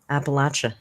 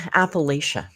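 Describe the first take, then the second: First: The third syllable has a short A sound. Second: The third syllable has a long A sound. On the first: "Short A" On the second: "we say Appalachia"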